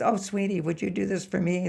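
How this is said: It is said in a sugary, affected voice.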